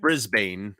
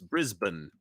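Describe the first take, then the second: First: The last syllable is a full 'bane'. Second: The last syllable is reduced to 'bun'. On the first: The speaker calls it wrong. "it's not Brisbane as we would say here" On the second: The speaker calls it right. "it's Brisbane ... is a bun"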